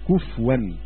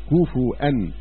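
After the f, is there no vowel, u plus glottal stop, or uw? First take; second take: no vowel; u plus glottal. First: The f has no vowel after it. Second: The f takes a u vowel, then a glottal stop. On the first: This is the reading of another reciter. "وقرأ حمزة بسكون الفاء" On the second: This is the reading of most reciters. "قرأ الأكثرون بالتثقيل والهمز"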